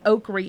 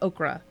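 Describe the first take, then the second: First: The word ends in an 'ee' sound. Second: The word ends in an 'ah' sound. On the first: This is the local way of saying it. "over here we say okry" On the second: This is how it is said elsewhere. "instead of okra"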